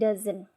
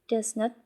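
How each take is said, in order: First: It is said as one contracted word. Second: It is said as two full words. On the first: The speaker calls it right. "but doesn't" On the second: The speaker calls it wrong. "We don't say it does not"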